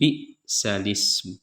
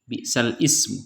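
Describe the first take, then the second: First: The vowel moves back and the words join smoothly. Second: A hamzah separates the two words. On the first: This follows the transmitted reading of this verse. "karena menurut Imam Hafs lafaz tersebut dibaca nakal" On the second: This is the usual reading. "Pada bacaan Al-Quran pada umumnya"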